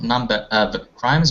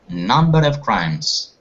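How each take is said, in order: First: The words are said separately, not linked. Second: The words are linked smoothly together. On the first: The speaker calls it wrong. "not number of crimes" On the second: The speaker calls it right. "try to link like number eight"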